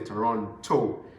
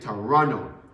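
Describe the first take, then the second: First: The second T sound is clearly pronounced. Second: The second T sound is dropped. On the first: This is not how locals say it. The speaker calls it wrong. "They don't say Toronto" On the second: This is how locals say it. The speaker calls it right. "They don't say T in Toronto"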